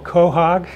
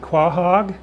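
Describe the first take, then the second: First: It is said the local New England way. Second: It is said the Maryland way.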